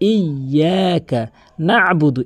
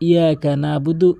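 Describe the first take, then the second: First: The y sound is held long and doubled. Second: The y sound is short and single. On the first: The speaker calls it right. "ইয়া তাসদীদের উচ্চারণ করতে হবে" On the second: The speaker calls it wrong. "অধিকাংশ লোক কি বলে"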